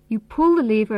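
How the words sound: The stress is on the word pull. The lever is pulled, not pushed. "This means you don't push the lever, you pull it"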